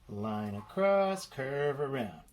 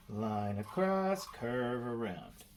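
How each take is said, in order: Both takes have the same delivery.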